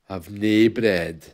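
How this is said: It is said in a Scottish accent.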